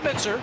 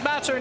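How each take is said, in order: First: The first vowel sounds like in 'mitt'. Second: The first vowel sounds like in 'mat'. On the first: The speaker calls it wrong. "not Mitzer" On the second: The speaker calls it right. "it is Matzer"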